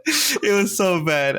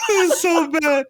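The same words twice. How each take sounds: First: Slow, calmer second take, a bit higher; slower repeat. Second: High, laughing shout. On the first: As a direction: drag it out, settling down from the laugh. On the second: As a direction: blurt it out mid-laugh, much higher. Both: Real, not acted.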